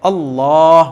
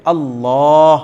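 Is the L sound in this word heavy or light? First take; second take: heavy; heavy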